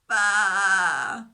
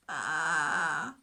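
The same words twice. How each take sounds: First: A loud, drawn-out weary baa; louder tired bleat. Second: A weary, low little baa; tired bleat. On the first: Stuck lamb bleats louder to reach the shepherd. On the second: Stuck lamb answers the shepherd with a tired bleat. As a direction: bleat faintly, worn out. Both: Acted. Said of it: "a little bit louder bleat, but very tired".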